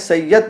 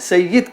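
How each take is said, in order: First: The vowel after the doubled y is a. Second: The vowel after the doubled y is i. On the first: This is the Urdu pronunciation. "सैयद नहीं कहते" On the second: This is the Arabic pronunciation. "अरबी में इस तरह बोलते हैं, सय्यिद कहते हैं"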